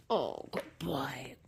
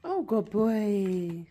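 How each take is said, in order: First: Soft breathy whisper, slow. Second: Slow, louder, stretched praise; drawn-out praise. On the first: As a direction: lean in and whisper the praise to the dog. Whispering softly to the dog. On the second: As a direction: stretch out the oh like a proud owner. Praising the dog warmly. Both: Real, not acted.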